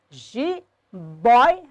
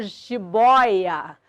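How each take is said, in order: First: "jiboia" split into three separate syllables, ji, boi, a; teacher dividing "jiboia" as ji-boi-a. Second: Said in the usual way. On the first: Shown as a demonstration. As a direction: break "jiboia" apart with pauses, ji... boi... a. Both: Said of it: "é um trissílabo".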